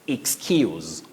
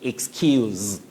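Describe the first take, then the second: First: The word ends with a hissing s sound. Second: The word ends with a buzzing z sound. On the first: It is used as a noun. "That is when it is a noun" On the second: It is used as a verb. "when it's a verb, you say excuse with the sound z"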